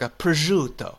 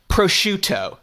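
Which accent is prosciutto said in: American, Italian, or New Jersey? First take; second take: Italian; American. First: It is said with a more Italian-sounding pronunciation. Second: It is said in a typical North American accent. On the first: "it seems like it's closer to" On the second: "the classic American or Canadian would go"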